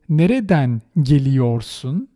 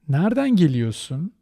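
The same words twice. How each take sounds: First: The syllable re in geliyorsun is fully pronounced. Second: The syllable re in geliyorsun is dropped. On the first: The speaker calls it wrong. "which is quite artificial" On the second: The speaker calls it right. "I omit that re in geliyor"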